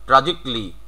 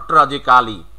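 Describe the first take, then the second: First: ট্র্যাজিকলি said "tra-jik-li"; silent A. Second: ট্র্যাজিক্যালি as "tra-ji-KA-li"; full "-ka-li" ending on ট্র্যাজিক্যালি; wrong local form. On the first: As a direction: drop the A in ট্র্যাজিকলি, ending "-jikli". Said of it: "তাহলে হবে". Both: Shown as a demonstration.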